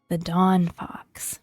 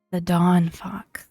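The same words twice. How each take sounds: The two takes are said the same way.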